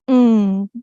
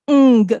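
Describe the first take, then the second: First: The g is held back in the nose. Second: The g is released as a clear stop. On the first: The speaker calls it right. "No, it's ng" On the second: The speaker calls it wrong. "Don't say it ng"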